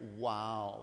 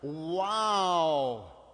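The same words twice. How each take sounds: First: It is said plainly, without much force. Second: It is said with strong force.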